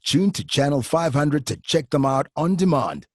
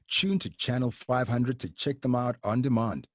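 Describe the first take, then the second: First: It is read punchily, like a movie trailer. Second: It is read plainly, without trailer drama.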